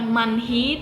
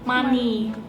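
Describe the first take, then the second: First: The h sound is pronounced in the middle. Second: The h sound is silent in the middle. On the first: The speaker calls it wrong. "bukan manhi" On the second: The speaker calls it right. "Ada H-nya tapi kayak nggak dibunyiin"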